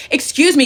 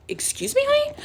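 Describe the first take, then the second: First: Higher, louder mock challenge; mock confrontational shout. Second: Very high, rising offended question; mock indignant disbelief. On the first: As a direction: imitate her calling someone out loudly. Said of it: "like, shouting at me". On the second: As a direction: squeak it up in exaggerated disbelief. Acting out her offended comeback.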